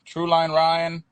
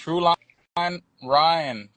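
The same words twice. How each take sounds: First: Said in the usual way. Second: Very slow, stretched auctioneer chant; drawn-out auctioneer call. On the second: Pretend. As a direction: drag out every word like an auctioneer. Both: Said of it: "He's over here sounding like an auctioneer".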